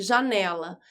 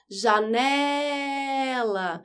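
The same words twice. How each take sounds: First: Said in the usual way. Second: Very drawn-out call, stretching the "ne" of Janela. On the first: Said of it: "vamos fazer outro teste". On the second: Shown as a demonstration. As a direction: call it like a name at someone's door. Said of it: "em qual sílaba você fica mais tempo gritando?".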